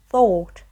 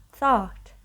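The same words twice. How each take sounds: First: British "thought", closed vowel, punched louder; British English. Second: American "thought" with an open vowel; American English. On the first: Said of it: "your mouth is, like, closed". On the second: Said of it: "It's more open in American English". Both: Shown as a demonstration.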